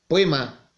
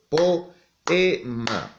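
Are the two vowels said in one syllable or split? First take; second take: one syllable; split. First: The o and e glide into one syllable. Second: The o and e are in separate syllables. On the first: The speaker calls it wrong. "¿Podré decir poema? No" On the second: The speaker calls it right. "estoy diciendo poema"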